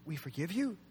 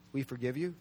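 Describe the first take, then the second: First: Tentative questioning. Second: Low, soft, tentative offering; tentative suggestion. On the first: Preacher puts the answer back to the congregation, soft questioning. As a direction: ask it softly, lifting on YOU. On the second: Preacher floats an answer to the congregation, low tentative suggestion. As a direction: offer it quietly, low and unsure. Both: Acted.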